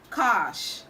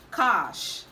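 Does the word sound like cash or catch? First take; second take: cash; cash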